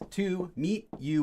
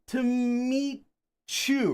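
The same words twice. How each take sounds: First: The T and Y are said separately. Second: The T and Y blend into a CH sound. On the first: It sounds like reading something official. The speaker calls it wrong. "We don't say that" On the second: It is how people normally say it. The speaker calls it right. "The T and the Y makes like a C H sound"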